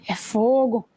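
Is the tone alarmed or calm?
calm. It is said calmly and with annoyance.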